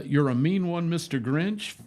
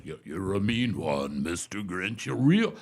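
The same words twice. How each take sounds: First: Said in the usual way. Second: [name] impression. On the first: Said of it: "he did that thing that". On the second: Man recalling a singer's Grinch song, imitating his deep bass. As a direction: sink low into a big bass, swelling at the end. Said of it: "It sounded just like the original".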